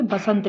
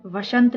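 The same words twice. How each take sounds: First: बसंत starting with "ba"; wrong pronunciation. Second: वसंत starting with "va"; correct pronunciation. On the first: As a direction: open बसंत on a b sound. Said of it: "ना कि बसंत लिखा जाता है". (बसंत को "ब" से शुरू करें) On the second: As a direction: open वसंत on a v sound. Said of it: "वसंत लिखा जाता है". (वसंत को "व" से शुरू करें) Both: Shown as a demonstration.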